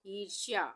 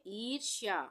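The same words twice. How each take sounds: The two takes are said the same way.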